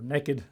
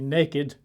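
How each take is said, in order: First: It is said the way some Americans say it. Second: It is said in a non-American way.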